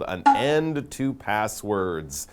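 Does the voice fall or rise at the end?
fall. The voice falls at the end like a statement. It is a plain statement. The speaker calls it wrong. "I should read that differently"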